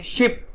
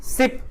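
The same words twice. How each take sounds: First: शिप begun with a hushing sh; sh sound. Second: सिप begun with a plain s; s sound. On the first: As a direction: say शिप as "ship", not "sip". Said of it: "श का प्रयोग है". (शिप को 'श' से बोलें) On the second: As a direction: say सिप as "sip", not "ship". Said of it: "स का प्रयोग है". (सिप को 'स' से बोलें) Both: Shown as a demonstration.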